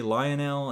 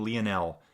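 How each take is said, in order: First: Lionel said LIE-uh-nel; usual English name. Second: Lionel said LEE-uh-nel; unsure name. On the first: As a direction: Lionel with a long lie sound at the start. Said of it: "then I start butchering it". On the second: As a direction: Lionel with a short lee sound at the start. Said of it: "I struggle with your name". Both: Shown as a demonstration.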